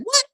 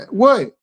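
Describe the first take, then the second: First: "What?" snapped up on a sharp rise in disbelief; surprised what. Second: Short, falling, dismissive "What?"; rude what. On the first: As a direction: react to shocking news with a quick rising "What?". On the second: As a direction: toss off "What?" like you don't want to be bothered. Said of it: "even me saying it calmly don't sound right". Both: Shown as a demonstration.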